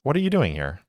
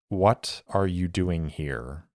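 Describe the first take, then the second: First: It sounds friendly, with a forced smile. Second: It sounds hard and steely.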